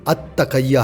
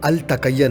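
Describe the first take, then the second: First: The L blends into the following T sound. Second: The article is said with a clear L sound. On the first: The speaker calls it right. "ये दरअसल अत तकैया है" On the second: The speaker calls it wrong. "ये अल तकैया नहीं है"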